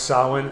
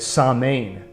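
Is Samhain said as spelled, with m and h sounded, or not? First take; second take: not as spelled; as spelled. First: It is not said the way it is spelled. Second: It is said as spelled, sounding m and h. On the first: The speaker calls it right. "but it's pronounced Samhain" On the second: The speaker calls it wrong. "he pronounces it Samhain, which is how it's spelled, but that's incorrect"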